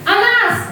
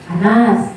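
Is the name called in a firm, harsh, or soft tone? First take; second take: harsh; soft. First: The name is snapped out harshly, like a scolding. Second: The name is said gently and softly. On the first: The adult is punishing the child. "kalau kita menghukum kita pasti menghardik" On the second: The adult is making the child feel guilty. "merasa bersalah pasti agak lembut lagi"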